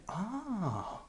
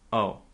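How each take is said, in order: First: It is said in an interested tone. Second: It is said in a disappointed tone. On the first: The news is wanted and interesting. "with a different tone" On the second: The news is unwelcome. "That shows that you're disappointed"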